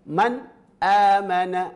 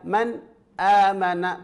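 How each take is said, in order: First: There is a short break after the n. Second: The same.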